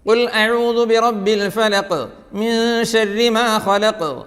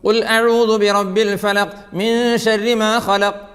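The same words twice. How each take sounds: First: The final consonants end with an echoing bounce. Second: The final consonants stop flat without a bounce. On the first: The speaker calls it right. "കണ്ടോ?" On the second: The speaker calls it wrong. "No"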